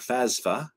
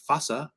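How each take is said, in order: First: The middle has an s sound before f. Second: The middle has only an s sound. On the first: "Some people pronounce it those ways. They're just dumb" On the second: "Some people pronounce it those ways. They're just dumb"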